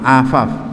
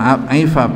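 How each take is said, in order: First: The word begins with an a vowel. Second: The word begins with an ai vowel. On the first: The speaker calls it right. "bi fathil ain" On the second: The speaker calls it wrong. "bukan aifaf"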